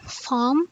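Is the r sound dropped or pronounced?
dropped. The r sound is dropped. "in B E we're going to pronounce it as farm"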